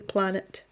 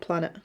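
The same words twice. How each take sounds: First: The T sound is clearly pronounced. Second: The T sound is dropped or swallowed. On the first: The speaker calls it right. "pronouncing the T properly" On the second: The speaker calls it wrong. "not planet"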